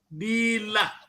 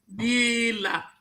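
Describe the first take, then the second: First: The vowels are said long. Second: The vowels are said long.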